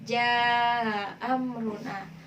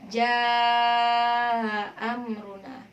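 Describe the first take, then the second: First: The vowel before the softened hamza is short. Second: The vowel before the softened hamza is medium length. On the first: "ma'al qasr" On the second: "wajah kedua yaitu dengan tawassut"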